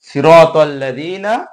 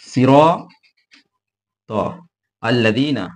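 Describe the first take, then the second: First: The two words are joined together. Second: The two words are said separately.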